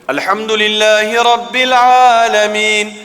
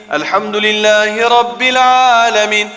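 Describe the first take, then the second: Both takes have the same delivery.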